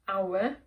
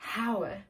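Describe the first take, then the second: First: The word begins with no h sound. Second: The word begins with an audible h sound. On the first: The speaker calls it right. "there's an, a, a letter H at the beginning, but it's silent" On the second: The speaker calls it wrong. "you don't say hour"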